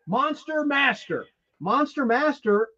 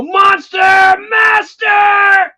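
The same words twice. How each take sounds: First: Eerie murmur. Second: Very high, very loud and drawn out; mock frustrated shout. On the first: Retold or imitated. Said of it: "I'm gonna do an impersonation". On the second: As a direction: scream it slowly like a possessed villain stuck in traffic. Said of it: "I'll go".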